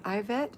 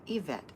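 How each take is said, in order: First: Yvette said as "eye-VET"; mistaken pronunciation. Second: Yvette said as "ee-VET"; pronounced with an E. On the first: Real, not acted. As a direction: open Yvette with a long I, like "eye". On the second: Shown as a demonstration. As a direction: open Yvette with a long "ee". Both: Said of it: "My name is pronounced with an E".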